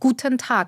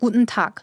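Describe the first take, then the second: First: It is said in a standard German accent. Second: It is said in a softer Berlin accent. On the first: "이렇게 하면 표준어인데" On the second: "베를린에서는 Guten Tag, Guten Tag 이렇게 말해요"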